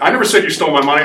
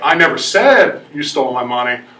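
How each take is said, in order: First: The stress is on "money". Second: The stress is on "said".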